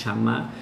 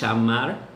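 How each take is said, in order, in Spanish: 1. La doble L suena cerca de ch. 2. La doble L suena cerca de ch.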